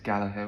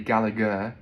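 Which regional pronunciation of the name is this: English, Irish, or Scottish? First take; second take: Irish; English. First: The name is said the Irish way, softly. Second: The name is said the English way. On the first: "in Ireland it's Gallagher with a soft uh" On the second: "in England it would be Gallagher"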